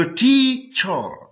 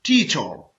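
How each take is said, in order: First: teacher very slowly in two parts, टी, चर; syllable by syllable. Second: Said in the usual way. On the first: Shown as a demonstration. Teacher showing learners the two syllables, teacher slowly split as टी-चर. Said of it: "टी एक syllable है और चर दूसरा". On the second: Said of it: "टी एक syllable है".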